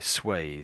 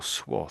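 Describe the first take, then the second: First: It is said with a British pronunciation. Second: It is said with an American pronunciation. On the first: "I think we say it more this way. Swathe, I would say" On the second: "But I think the Americans say more swath"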